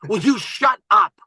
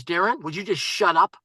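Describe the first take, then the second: First: Slow, emphatic retold "shut up"; exasperated repeat. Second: Understated retold "shut up"; mild exasperated interruption. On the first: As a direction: space out each word to silence someone. Investor repeats it, more forcefully. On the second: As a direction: cut in, firmly but contained. Investor first cuts off his pitch.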